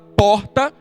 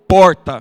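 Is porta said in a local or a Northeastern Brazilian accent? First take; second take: Northeastern; local. First: Porta is said in a Northeastern Brazilian accent. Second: Porta is said in the local city accent. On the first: This is how he spoke when he arrived. "Ao invés de eu falar porta" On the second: This is how he learned to speak to fit in. "eu aprendi a falar porta"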